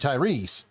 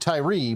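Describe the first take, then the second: First: The name ends with an s sound. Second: The name ends on a vowel sound. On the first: The speaker calls it right. "but it's actually Tyrese" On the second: The speaker calls it wrong. "I was saying Tyree"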